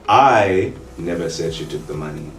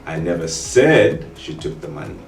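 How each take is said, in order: First: The stress is on the word I. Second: The stress is on the word said.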